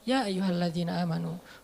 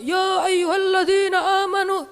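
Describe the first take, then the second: First: It is said calmly in a relaxed voice. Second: It is said loudly, like a shouting preacher.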